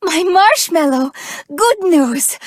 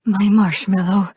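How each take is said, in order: First: Higher, bright burst of joy on marshmallow; excited greeting. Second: Tender pet name. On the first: Greeting her sweetheart with big news, excited. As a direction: call out the pet name with delight. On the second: About to confess love to her sweetheart, tender. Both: Acted.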